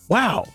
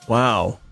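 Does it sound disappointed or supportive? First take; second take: supportive; disappointed. First: It sounds supportive and encouraging. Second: It sounds let down and disappointed.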